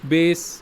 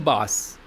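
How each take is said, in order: First: It sounds exactly like the word base. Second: Its vowel differs from the word base. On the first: It means the lowest note in music. "And not pronounced bass" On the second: It means a kind of fish. "which is pronounced as bass"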